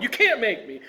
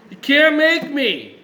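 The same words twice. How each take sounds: First: Higher-pitched mock tantrum; foot-stomping defiance. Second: Put-on high, loud, drawn-out childish whine; whining little baby. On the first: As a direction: refuse like a stubborn, stomping child. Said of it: "stomping his feet and saying". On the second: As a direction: protest like a whiny little kid. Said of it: "whining like a little baby".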